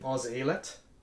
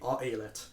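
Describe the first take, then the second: First: A z sound links the article to the vowel. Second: No consonant links the article to the vowel. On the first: The speaker calls it right. "So here it would be oz-alet" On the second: The speaker calls it wrong. "That would sound wrong"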